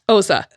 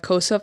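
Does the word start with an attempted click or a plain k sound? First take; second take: attempted click; plain k. First: It starts with an attempted click sound. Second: It starts with a plain English k sound. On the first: "The closest I could get is Osa" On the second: "I'm pronouncing it in the English version"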